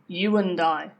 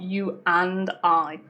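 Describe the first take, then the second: First: The word and is weak with a schwa. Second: The word and has a full vowel. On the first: The speaker calls it right. "you could say" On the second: The speaker calls it wrong.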